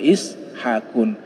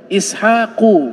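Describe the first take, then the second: First: The name ends in un with an n. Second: The name ends in a plain u vowel. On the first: The speaker calls it wrong. "tidak boleh dibaca Ishaqun" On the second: The speaker calls it right.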